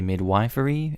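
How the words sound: The word is said the American way. "I know Americans say midwifery"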